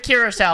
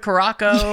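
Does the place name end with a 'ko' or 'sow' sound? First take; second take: sow; ko. First: The name ends with a 'sow' sound. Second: The name ends with a 'ko' sound. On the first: The speaker calls it right. "they're like, welcome to Curacao" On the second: The speaker calls it wrong. "100 times we said Caraco"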